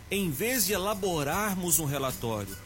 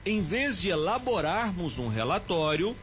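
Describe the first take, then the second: No difference in how they are said.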